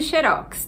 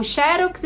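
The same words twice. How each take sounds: First: "xerox" stressed on the final syllable, xe-ROX; stress on last syllable. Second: "xerox" stressed on the first syllable, XE-rox. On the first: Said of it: "a pronúncia vai ficar xerox, vai virar uma palavra oxítona". ("xerox" oxítona, com a última sílaba forte) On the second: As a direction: say "xerox" with the weight on XE. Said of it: "pra dizer xerox, a gente precisa colocar o acento na primeira sílaba". ("xerox" com a primeira sílaba tônica) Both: Shown as a demonstration.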